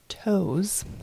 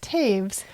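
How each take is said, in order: First: The name sounds exactly like the word toes. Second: The name rhymes with the word waves. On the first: This is how the speaker's family says it. "like toes on your feet" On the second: This is how some other people say it. "it's also pronounced Taves to certain people"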